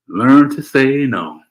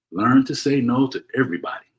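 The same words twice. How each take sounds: First: LEARN to say no, slow and louder, leaning on learn; slow emphatic advice. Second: Said in the usual way. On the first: Shown as a demonstration. Host urges viewers to learn refusal, slow and emphatic. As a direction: drive home each word of Learn to say no. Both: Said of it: "I'm gonna say it again".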